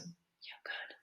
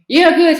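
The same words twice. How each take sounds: First: It is said quietly and timidly. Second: It is said louder and more firmly. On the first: "it was so" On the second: "maybe I should speak it a little bit louder"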